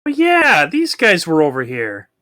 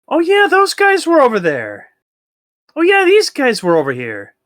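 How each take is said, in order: First: Dopey creature voice. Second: Very high, loud silly voice; dopey creature voice. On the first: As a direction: play the dimwitted monster. Voicing dumb creatures. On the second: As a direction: ham up the dim creature. Voicing dumb creatures higher. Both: Pretend.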